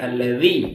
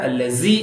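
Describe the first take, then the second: First: The middle consonant is a soft th sound. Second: The middle consonant is a z-like sound. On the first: The speaker calls it right. "In between அல்லதி" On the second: The speaker calls it wrong. "ஜாவாவும் சொல்லக்கூடாது, அல்லசி இல்ல"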